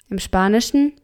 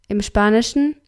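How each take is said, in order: Both takes have the same delivery.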